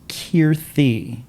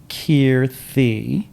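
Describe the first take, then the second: Both takes have the same delivery.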